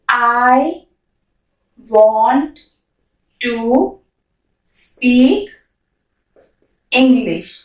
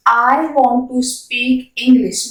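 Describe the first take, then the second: First: Each word spoken separately with long gaps; slow dictation pace. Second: The whole sentence at a slow, even teaching pace; slow classroom model; slow full sentence. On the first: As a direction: spell it out one word at a time, pausing between. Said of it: "word-by-word model sentence". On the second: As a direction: say it smoothly and slowly in one breath. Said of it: "full sentence repeated". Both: Shown as a demonstration.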